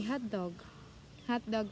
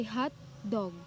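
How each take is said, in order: First: "hot dog" run together as one word; two words joined, as for the food; closed juncture. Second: "hot dog" split into two separate words; open juncture. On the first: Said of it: "that means it's a food". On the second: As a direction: clear break between "hot" and "dog". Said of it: "it has pauses or like breaks". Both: Shown as a demonstration.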